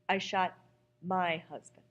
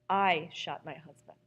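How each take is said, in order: First: The stress falls on the word my. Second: The stress falls on the word I.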